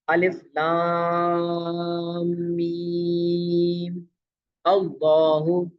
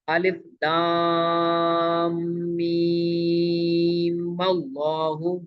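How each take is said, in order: First: There is a pause before 'allahu'. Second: It is said in one breath without pausing.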